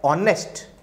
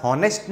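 First: ऑनेस्ट with the h silent, opening on the vowel; drawn-out ऑनेस्ट, no h at the front. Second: हॉनेस्ट with an audible h at the front; the mistaken h-first हॉनेस्ट; wrongly sounded h. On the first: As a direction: say ऑनेस्ट starting straight on an "o" sound. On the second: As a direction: say हॉनेस्ट starting on a breath of h. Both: Shown as a demonstration. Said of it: "हॉनेस्ट नहीं बोलते".

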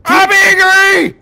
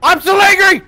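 First: High, loud, slow mock-angry roar; hammed-up fury. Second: High loud mock-angry yell; hammed-up rage. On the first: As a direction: drag out the rage like a raging bull. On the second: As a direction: roar out the anger for fun.

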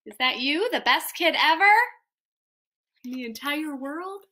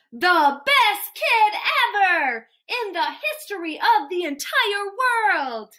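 First: Teasing question that softens at the end; doubtful questioning. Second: Each word punched out high; grand proclamation. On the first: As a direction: ask it in playful disbelief. Reader doubtfully questions the praise. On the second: Grand praise of the listening child. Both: Acted.

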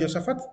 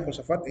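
First: "Josafat" as Yosafat, with a Y; Hebrew pronunciation. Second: "Josafat" with the Spanish J, like kh; Castilian pronunciation. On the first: Teacher giving the correct Hebrew form, Y pronunciation. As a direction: say "Josafat" with Y in place of J. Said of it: "lo correcto en hebreo". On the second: Teacher asking if the Castilian form is valid, Spanish J pronunciation. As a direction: open "Josafat" on a throaty J. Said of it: "en el castellano". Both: Shown as a demonstration.

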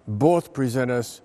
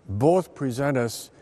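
The two takes are said the same way.

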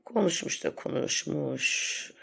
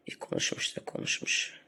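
First: Said in the usual way. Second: Snide whisper of İyi konuşmuş da konuşmuş; mock whisper. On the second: Sneering at a rival vlogger, whispered. Mocking a rival's endless talk.

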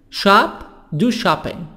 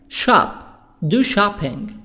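Both takes have the same delivery.

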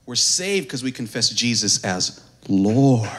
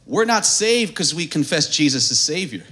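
First: Slow, low, with "Lord" drawn out; preacher teaching whom to confess, weighty stress on "Lord". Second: "not" stressed, the rest evenly stated; preacher correcting the congregation's belief, stress on "not". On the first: Pause before "Lord" and stretch it. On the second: Lean on "not" and move on through "Savior". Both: Shown as a demonstration.

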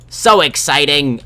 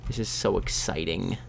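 First: Slow, high, loud excitement. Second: Soft, low-key excitement; understated excitement. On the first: Player thrilled about enchanting a sword, loud excitement. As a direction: belt it out, stretched and high. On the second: Player about to enchant a sword, understated. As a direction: say it softly, holding back. Understated first take, then yelled. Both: Pretend.

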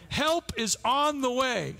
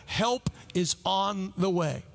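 First: "Help is on the way" slow and raised in pitch; slow, higher, emphatic "Help is on the way"; emphatic repeat. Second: Said in the usual way. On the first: Real, not acted. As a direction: proclaim "Help is on the way", drawing out each word. Preacher repeats promise for emphasis.

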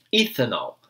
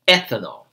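First: Ethanol said as "itenaw", E as I, L as W; wrong Portuguese-style pronunciation. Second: Ethanol said the English way, clear E and final L; correct English pronunciation. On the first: Teacher showing students the mistake to avoid with ethanol. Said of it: "a gente não pronuncia ethanol". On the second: Teacher giving students the correct English ethanol. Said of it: "é ethanol". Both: Shown as a demonstration.

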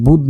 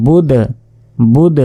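First: বুদ said flat without echo; বুদ with a dead stop; plain বুদ. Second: বুদ with an echoing bounce on the dal; with qalqalah. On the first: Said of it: "বুদ না বলে". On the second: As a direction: let the dal of বুদ rebound. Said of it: "তখন বলতে হবে". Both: Shown as a demonstration.

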